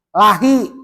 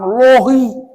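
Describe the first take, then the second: First: The L is light, followed by an 'a' vowel. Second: The L is heavy, followed by an 'o' vowel. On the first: The speaker calls it right. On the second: The speaker calls it wrong. "bukan lohi"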